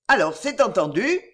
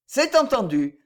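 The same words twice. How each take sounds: First: ENTENDU rising as a question; rising tune on "entendu". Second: C'EST higher, then falling to a close; falling, settled tune on "entendu"; simple confirmation. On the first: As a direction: ask for confirmation, lifting the end of "entendu". Seeking confirmation of the agreement. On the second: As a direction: answer simply, letting "entendu" fall. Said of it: "répondit simplement monsieur Mauvrier". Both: A narrator's reading.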